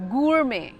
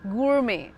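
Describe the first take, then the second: First: American accent, with a clearly sounded R. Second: The same.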